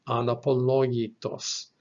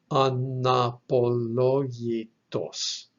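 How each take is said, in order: First: Said in the usual way. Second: "anapologitos" sounded out slowly, syllable by syllable; slow pronunciation demo. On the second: Shown as a demonstration. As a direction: draw out each syllable of "anapologitos" for learners. Teacher sounds out new Greek word.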